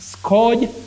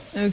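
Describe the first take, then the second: First: The vowel is not a long central sound. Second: The vowel is a long mid central sound. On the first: The speaker calls it wrong. "please don't say scourge. Scourge, no" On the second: The speaker calls it right. "You say scourge with the long mid central sound"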